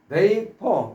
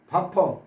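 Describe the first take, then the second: First: The first vowel sounds like 'ay'. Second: The first vowel sounds like 'ah'. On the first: The speaker calls it right. "원래 베이퍼 이렇게 발음해야 되는데" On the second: The speaker calls it wrong. "바퍼 바퍼 이렇게 하면서 소개를 드린 적 있습니다"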